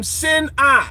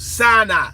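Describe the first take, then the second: First: "Sinai" said as sin-ah, two separate syllables; corrected pronunciation. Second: "Sinai" with first syllable like "sign"; common mispronunciation. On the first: Naming where the Yahweh God came from, "Sinai" slowly as sin-ah. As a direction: split "Sinai" into slow sin, then ah. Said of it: "the first syllable is sin". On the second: Breaking the word apart for listeners, "Sinai" said sign-eye. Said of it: "you're saying it fucking wrong". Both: Shown as a demonstration.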